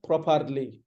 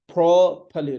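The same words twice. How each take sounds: First: Properly as prop-AR-lee, r sounded; "properly" with a strong middle syllable; mispronounced properly. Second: Properly as PROP-uh-lee, loud first syllable; "properly" with a weak middle, falling; correct properly. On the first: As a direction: say properly wrongly with a full 'ar'. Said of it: "it's not properly". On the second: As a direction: punch the P of properly. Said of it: "P has the stress". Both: Shown as a demonstration.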